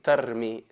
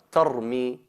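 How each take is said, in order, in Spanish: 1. El sonido de la r es ligero y delgado. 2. El sonido de la r es pesado y enfático. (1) "no hay que decir" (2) "Veis que la ra sale mufajjama"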